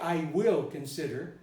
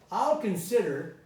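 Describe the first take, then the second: First: The word 'will' is said in full. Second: The word 'will' is contracted to 'I'll'. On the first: "notice I didn't say I will consider" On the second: "normal thing"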